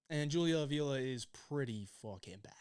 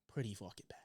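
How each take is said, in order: First: Said in the usual way. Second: Hushed, dismissive repeat; whispered aside. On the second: Real, not acted. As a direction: whisper it under your breath.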